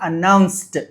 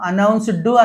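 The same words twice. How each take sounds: First: The word ends with a t sound. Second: The word ends with a d sound. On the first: The speaker calls it right. "డీని టాలా ఎప్పుడు చదవాలి?" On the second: The speaker calls it wrong. "అనకుండా"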